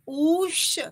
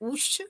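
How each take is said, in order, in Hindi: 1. यह स्वर तीन मात्रा तक खिंचता है। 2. यह स्वर एक छोटी मात्रा तक खिंचता है। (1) "त्रिमात्रिक उकार" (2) "एक मात्रिक उकार"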